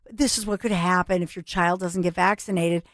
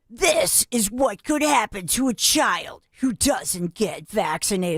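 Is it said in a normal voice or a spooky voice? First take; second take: normal; spooky. First: It is said in a normal, serious voice. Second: It is said in a creepy, spooky monster voice.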